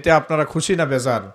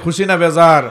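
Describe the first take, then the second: First: It is said at normal loudness. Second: It is said more loudly.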